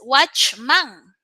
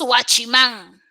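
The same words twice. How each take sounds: First: It is pronounced with English sounds, as watchman. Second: It is pronounced with Spanish sounds, as guachimán. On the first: This is the original foreign term. "el término es watchman" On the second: This is the everyday adapted form. "como somos expertos"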